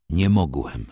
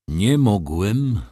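First: "nie mogłem" stated briefly, falling; plain admission. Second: "Nie mogłem" slow and loud, each word weighted; emphatic insistence. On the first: Wokulski explains not returning, a simple falling "nie mogłem". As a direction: let "nie mogłem" drop as a simple answer. First answer why he stayed away. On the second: Wokulski insists to doubting Ignacy, emphatic slow "Nie mogłem". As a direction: stretch "Nie mogłem" out forcefully. Insists after being questioned. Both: A narrator's reading.

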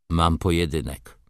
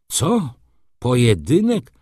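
First: Said in the usual way. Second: High, loud disbelieving question; startled cry. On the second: Acted. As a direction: cry it out in astonishment. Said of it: "krzyknął z błyszczącymi oczyma".

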